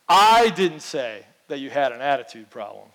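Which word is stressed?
I. The stress is on the word I.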